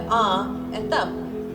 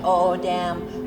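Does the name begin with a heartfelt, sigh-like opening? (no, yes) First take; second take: yes; no. First: It begins with a heartfelt, sigh-like opening sound. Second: It begins with a plain, casual opening sound. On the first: The speaker calls it right. "like if something touches your heart" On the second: The speaker calls it wrong. "they cannot pronounce the name correctly"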